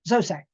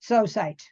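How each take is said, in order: First: The word is said very quickly. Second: The word is said at a slower pace.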